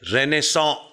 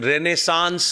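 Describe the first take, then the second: First: It ends in a nasal vowel, no final 's'. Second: It ends with a clear 'ns' sound. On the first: "मी उच्चार करतोय तो मूळचा शब्द फ्रेंच आहे" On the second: "तो अँग्लिसाइज्ड उच्चार आहे"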